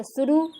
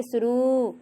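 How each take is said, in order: First: शुरू said with a short final उ; wrong vowel in शुरू. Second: शुरू with a long drawn रू at the end; correct long ऊ in शुरू. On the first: Teacher showing the class a wrong शुरू. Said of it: "शुरू गलत है". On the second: Teacher showing the class the right शुरू. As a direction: stretch the last syllable of शुरू into रू. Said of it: "रा बड़ा ऊ की मात्रा रू". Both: Shown as a demonstration.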